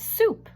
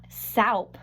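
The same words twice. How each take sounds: First: Said in the usual way. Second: "soup" said with an "ow" vowel, like "sowp"; mispronounced soup. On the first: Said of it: "It's soup". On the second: Shown as a demonstration. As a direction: wrongly rhyme "soup" with "cow" plus a p. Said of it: "That word is not soup".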